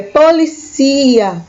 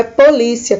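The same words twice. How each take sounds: First: "policia" with the stress moved to "ci": po-li-CI-a, slow; Spanish stress. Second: "polícia" with the stress on "lí", as in Portuguese. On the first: Teacher gives students the Spanish "policia", slowly. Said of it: "em espanhol se diz policia". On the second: Teacher shows students the Portuguese "polícia". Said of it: "o acento no local diferente". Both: Shown as a demonstration.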